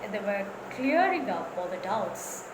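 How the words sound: Clearing up is said with strong stress. The speaker calls it right. "I'm giving stress to clearing up"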